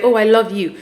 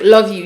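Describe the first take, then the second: First: Nurturing love you. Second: LOVE YOU tossed off short and plain; offhand love you. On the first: Woman showing partner how to say "I love you", nurturing. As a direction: give "I love you" some mild tenderness. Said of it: "in a nurturing way". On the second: Woman imitating partner's offhand "Love you", no nurturing. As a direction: say "Love you" as a quick throwaway. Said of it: "you just say, like". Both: Retold or imitated.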